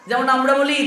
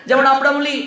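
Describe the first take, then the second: The two takes are said the same way.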